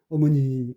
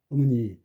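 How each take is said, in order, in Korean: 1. 첫 모음은 완전하고 분명하게 발음돼요. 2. 첫 모음은 슈와로 약화돼요. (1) "어머니 안 그러고" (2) "편하니까 어머니"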